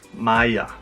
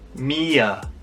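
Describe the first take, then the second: First: The name begins with an 'eye' vowel. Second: The name begins with an 'ee' vowel.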